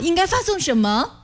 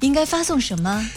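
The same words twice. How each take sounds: First: The voice cracks on the words. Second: The voice is soft, gentle and light.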